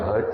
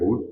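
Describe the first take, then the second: First: The vowel is a short 'uh' sound. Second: The vowel is an 'oo' sound. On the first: The speaker calls it right. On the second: The speaker calls it wrong.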